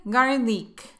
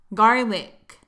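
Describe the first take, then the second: First: "garlic" mispronounced as gar-leek; "garlic" ending in a long, tense eek; wrong long vowel. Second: "Garlic" as gar-lik, short lax i; louder model "Garlic" with a loose ik ending; short relaxed vowel. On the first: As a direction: say "garlic" with a tense ee in the last syllable. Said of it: "No vayas a decir garlic". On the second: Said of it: "es un sonido corto y relajado". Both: Shown as a demonstration.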